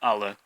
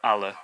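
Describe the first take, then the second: Both takes have the same delivery.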